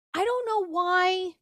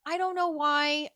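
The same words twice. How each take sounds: First: High, slow, drawn-out I don't know why; whining it out in disbelief; high exasperated. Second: Said in the usual way. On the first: Real, not acted. Puzzled at her own new dating kick, high and drawn out. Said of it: "exasperated repeat". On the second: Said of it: "repeat, less marked".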